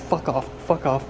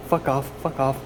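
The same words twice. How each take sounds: First: Loud repeated fuck off; angry shooing. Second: Loud repeated fuck off, rhythmic; angry shooing. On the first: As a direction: chase the flies off shouting. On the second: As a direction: keep chasing them off. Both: Real, not acted. Shooing flies.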